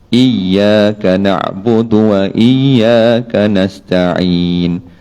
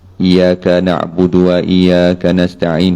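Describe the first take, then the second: First: The y sound in iyyaka is doubled and lifted. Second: The y sound in iyyaka is single and flat. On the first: The speaker calls it right. "baca pun kena ada dia tasydid, kena eh, naik sikit" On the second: The speaker calls it wrong. "tak boleh baca selari"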